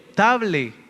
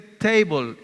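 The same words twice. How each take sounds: First: The word is said with Spanish-style pronunciation. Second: The word is said with English pronunciation. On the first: The speaker calls it wrong. "no estoy pronunciándola bien" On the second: The speaker calls it right. "esta palabra en inglés se dice table"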